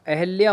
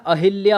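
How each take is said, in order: First: अहिल्या said as eh-lya, no i after h; correct form. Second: अहिल्या with a clear hi, a-hil-ya; wrong form. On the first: Teacher giving the right name, अहिल्या as ahalya. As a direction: say अहिल्या like अहल्या. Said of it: "अहिल्या correct है". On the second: Teacher showing the common mistake, अहिल्या with hi. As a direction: sound the i after h in अहिल्या. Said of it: "अहिल्या गलत है". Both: Shown as a demonstration.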